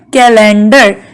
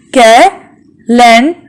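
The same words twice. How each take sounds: First: Said in the usual way. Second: "Calendar" slowly as ca, len, dar; long gaps inside "Calendar"; split into syllables. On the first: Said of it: "How many, uh". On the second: Shown as a demonstration. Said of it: "So it is a three syllable word".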